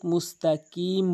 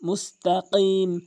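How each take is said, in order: First: The k sound is a plain front k. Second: The k sound is made deep at the back. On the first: The speaker calls it wrong. "কফের জায়গায় কাফ এনে উচ্চারণ করে" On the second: The speaker calls it right. "জিহ্বার গোড়া উপরে তালুর সঙ্গে ধাক্কায় এভাবে"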